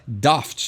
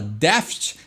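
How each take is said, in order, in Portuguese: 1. A vogal A é fechada, com som britânico. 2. A vogal A é aberta, sem som britânico. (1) "tu fecha o A aí para pronunciar melhor e dar esse tom britânico" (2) "tu não fala daft"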